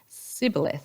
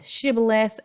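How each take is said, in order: First: The word begins with an "s" sound. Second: The word begins with a "sh" sound. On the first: It marks a speaker from Ephraim. "those in Ephraim, west of the Jordan, they pronounced it as sibboleth" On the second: It marks a speaker from Gilead. "Those in Gilead, they pronounced it shibboleth"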